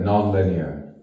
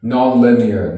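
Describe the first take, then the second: First: Said in the usual way. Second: "Non-linear" lifted louder, then falling; emphatic first take. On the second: Acted. Poet musing on the mind, emphatic "Non-linear". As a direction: throw out "Non-linear" strongly, voice raised. Word repeated in contrasting delivery.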